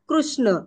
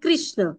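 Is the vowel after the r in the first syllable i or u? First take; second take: u; i. First: The first syllable has an r followed by u. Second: The first syllable has an r followed by i. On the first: The speaker calls it right. "हलंत क अधिक र अधिक उ, कृ असा कृष्ण" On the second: The speaker calls it wrong. "क हलंत अधिक र अधिक ई म्हणजे कृष्ण असं करतात. हे चुकीचं आहे"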